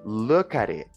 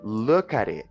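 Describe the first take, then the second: First: The words run together with a flapped t. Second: The words run together with a flapped t.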